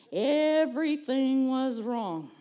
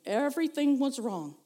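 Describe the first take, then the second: First: EVERYTHING stretched out slowly; slow, lamenting emphasis on EVERYTHING; drawn-out emphasis. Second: Said in the usual way. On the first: Retold or imitated. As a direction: dwell on every word, EVERYTHING held long. Repeats it drawn out for effect.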